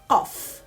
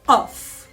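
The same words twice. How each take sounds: First: It starts with a deep stop far back. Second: The same.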